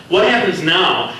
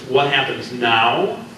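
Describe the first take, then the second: First: Higher and louder, falling firmly on what; sharp retort. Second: Slow, rising, mock-puzzled echo of his words; slow questioning echo. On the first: Acted. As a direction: snap the question back as a demand. Reika answers sharply. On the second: Reika repeats his question.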